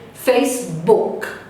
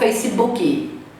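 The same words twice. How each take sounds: First: The word ends cleanly on a consonant sound. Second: An extra vowel syllable is added at the end. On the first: The speaker calls it right. "O K termina na garganta" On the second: The speaker calls it wrong. "Eu não vou pronunciar Facebook"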